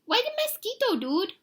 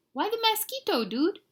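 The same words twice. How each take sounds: First: Extremely high, squeaky little voice; teeny cartoon pup, pitched way up; tiny Chihuahua. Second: Very high small-dog voice; retry the little pup's question, pitched high; squeaky cartoon questioner; tiny Chihuahua. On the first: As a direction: pipe up as the smallest dog in the gang. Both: A narrator's reading. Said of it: "the smallest of the small ones spoke up".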